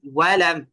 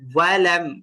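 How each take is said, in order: First: It starts with a rounded-lip w sound. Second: It starts with a rounded-lip w sound.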